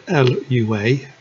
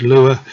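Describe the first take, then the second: First: L U A as three separate letters; spelled out. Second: Lua said as one word, LOO-uh; pronounced as a word. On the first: Narrator naming a programming language for viewers, L U A spelled out. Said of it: "Not sure how you pronounce it". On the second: Narrator giving viewers his own pronunciation, Lua as one word. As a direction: say Lua like "loo-uh", not as letters. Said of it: "I pronounce it as". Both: Shown as a demonstration.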